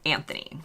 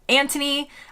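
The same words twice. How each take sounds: First: The middle consonant is a th sound. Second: The middle consonant is a plain t sound. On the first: "We would pronounce the uh, H" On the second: "in the U K, typically it is pronounced Anthony"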